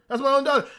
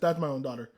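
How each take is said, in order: First: Pitched up, protective anger starting to build; emphatic insistence. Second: Low and soft; subdued admission. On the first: Fan claiming the character as his daughter, emphatic. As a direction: insist on it, higher. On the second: Fan admitting he sees the character as his daughter, subdued. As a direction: say it quietly, pitched down. Subdued first take before emphatic repeat. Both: Real, not acted.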